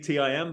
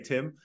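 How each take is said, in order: First: It is spelled out as three separate letters. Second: It is said as a single word. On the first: This is the technically correct form of the title. "It probably is technically T-I-M" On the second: This is how the speaker personally says the title. "but I say Tim"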